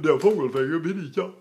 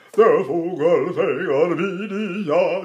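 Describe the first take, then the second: First: Quicker mock yawny German line; yawned-throat speech. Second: Sung, slow mock-operatic yawny line; sung, intone it with a swallowed, yawning throat; sung, yawned operatic delivery. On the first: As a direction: speak it with an exaggerated hollow throat. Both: Shown as a demonstration. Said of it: "Do I really talk like that".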